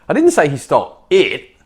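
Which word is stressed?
it. The stress is on it.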